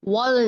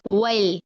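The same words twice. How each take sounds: First: वल as a heavy, rounded "wol"; thick lam. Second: वल as a light, long "wail"; spread thin lam. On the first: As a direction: darken the L in वल. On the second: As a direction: draw out वल with a thin L. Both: Shown as a demonstration. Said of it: "वल नहीं करना".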